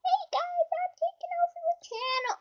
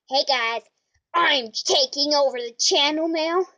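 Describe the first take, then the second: First: Much higher, fast puppet voice; high fast toy crocodile voice. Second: Said in the usual way. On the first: Acted. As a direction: squeak it like a cheeky toy crocodile. Crocodile takes over channel.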